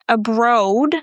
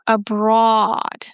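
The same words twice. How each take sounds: First: The stressed vowel is an 'oh' sound. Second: The stressed vowel is an 'aw' sound. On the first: The speaker calls it wrong. "Listen, not abroad" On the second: The speaker calls it right. "There is no O, abroad. It's the aw sound"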